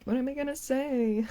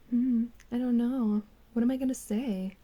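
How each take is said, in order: First: Higher, quizzical mock voice; mock dopey guy voice. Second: Mock pondering guy. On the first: Corrected take of the thumbnail guy, mock dopey voice. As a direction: play him lost for words. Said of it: "it's more like". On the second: For the video thumbnail, a mock pondering creator voice. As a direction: imitate him stuck for words. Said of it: "Just kidding, it's more like".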